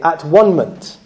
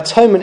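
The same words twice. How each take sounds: First: The word is split into at, one, ment. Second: The word is said smoothly as one unit. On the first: This is an older pronunciation. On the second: This is the present-day pronunciation.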